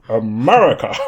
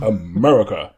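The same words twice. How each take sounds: First: It is said with grand feeling. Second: It is said flatly, without feeling.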